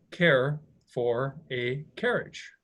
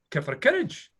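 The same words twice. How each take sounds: First: Said in the usual way. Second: Put-on "Get for a carriage" in a mild Scottish accent, with the vowels run together; retelling a Scottish driver's offer in his own accent; imitating a Scottish accent. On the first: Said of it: "He was saying". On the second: Mock Scottish man offering a passing walker a carriage. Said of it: "he was speaking in Scottish English".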